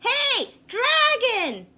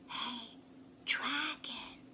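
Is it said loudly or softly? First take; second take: loudly; softly. First: It is shouted very loudly. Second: It is whispered very softly.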